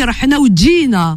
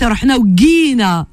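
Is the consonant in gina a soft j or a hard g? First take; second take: soft j; hard g. First: It uses the soft j of the speaker's dialect. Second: It uses the hard Egyptian g sound.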